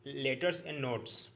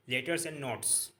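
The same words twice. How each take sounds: The two takes are said the same way.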